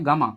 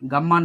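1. মাঝের m ধ্বনিটি হ্রস্ব। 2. মাঝের m ধ্বনিটি দীর্ঘ করে উচ্চারণ করা হয়। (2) "গাম্মা নয়"

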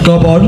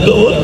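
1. এটি শান্ত, স্বাভাবিক স্বরে বলা হয়েছে। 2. এটি হাসিতে ফেটে পড়ে বলা হয়েছে। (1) "ন্যাচারালভাবে কবিতা আবৃত্তি করছে" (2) "উনি কথায় কথায় হাসে"

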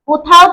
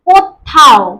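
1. মাঝের ব্যঞ্জনটি ছোট আর একক। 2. মাঝের ব্যঞ্জনটিতে জোর দেওয়া হয় এবং সেটি দ্বিত্ব।

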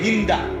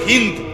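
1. নামটি শেষ হয় যোগ করা 'a' স্বরধ্বনি দিয়ে। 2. নামটি শেষ হয় ব্যঞ্জন 'd' দিয়ে। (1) "আমাদের দেশের উচ্চারণে বলে হিন্দা" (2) "মূলত হলো হিন্দ, আকারটা নাই"

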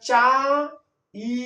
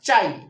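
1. শেষের ই স্বরধ্বনিটি আলাদাভাবে টানা হয়। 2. শেষের ই স্বরধ্বনিটি ছোট এবং গড়িয়ে ঢুকে যায়। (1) "আমরা চা ই এভাবে কিন্তু উচ্চারণ করতে পারবো না" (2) "কিন্তু ই কে টানা যাবে না।"

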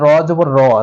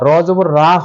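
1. শেষ স্বরধ্বনিটি ছোট ও দ্রুত। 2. শেষ স্বরধ্বনিটি দীর্ঘ ও টানা। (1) "হরকতের উচ্চারণ অবশ্যই দ্রুত পড়িতে হয়" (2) "র জবর রা হবে না কখনো"

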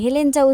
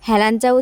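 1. দ্বিতীয় স্বরধ্বনিটি একটি 'e' ধ্বনি। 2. দ্বিতীয় স্বরধ্বনিটি একটি খোলা 'a' ধ্বনি। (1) "হেলেঞ্চা উচ্চারণ হয়" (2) "ওটাকে কি হেলাঞ্চা উচ্চারণ হয়"

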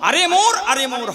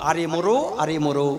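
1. শব্দটি খালি ব্যঞ্জনে শেষ হয়। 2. শব্দটি যোগ করা o স্বরে শেষ হয়। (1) "মোর থাকলে মোর হবে না" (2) "মোরও হবে"

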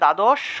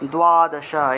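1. প্রথম ব্যঞ্জনের পরে কোনো w-গ্লাইড নেই। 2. প্রথম ব্যঞ্জনের পরে একটি w-গ্লাইড আছে। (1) "বাংলায় বললে দ্বাদশ" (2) "সংস্কৃত উচ্চারণ হবে দ্বাদশা"

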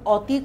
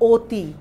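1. প্রথম স্বরধ্বনিটি একটি খোলা 'aw' ধ্বনি। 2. প্রথম স্বরধ্বনিটি একটি বদ্ধ 'o' ধ্বনি। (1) "এটাকে তুমি কিন্তু উচ্চারণ অতি করছো না" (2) "তুমি কিন্তু করছো অতি। কাজেই এই অটাকে কিন্তু তোমাকে ও লিখতে"

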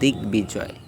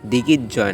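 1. g এবং b উভয় ধ্বনিরই উচ্চারণ হয়। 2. মাঝখানে কোনো b উচ্চারণ হয় না। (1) "গ এবং ব উভয়ের উচ্চারণ হবে" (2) "দিগির জয় না"

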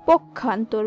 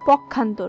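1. প্রথম দলে o স্বরধ্বনি আছে। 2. প্রথম দলে a স্বরধ্বনি আছে। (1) "সঠিক হবে পক্ষান্তর বা পক্ষ ... ওকার এই হিসাবেই উচ্চারণ করতে হবে" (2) "আমরা বলে থাকি পক্ষান্তর বা পক্ষ, কিন্তু সেটি সঠিক নয়"

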